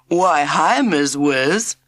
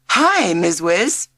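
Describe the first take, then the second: First: Louder, hammed-up American "Why, hi, Miss Wiz"; cheeky kid mocking with a put-on American drawl; silly American accent. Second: Bright, drawn-out demo of the new greeting; teacher showing the greeting. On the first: Jack teasing the new teacher in a silly American accent. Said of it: "he said in a silly American accent". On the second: The teacher showing class three how to greet her, drawn out. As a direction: model the cheerful hello slowly for the class. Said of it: "You say". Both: A narrator's reading.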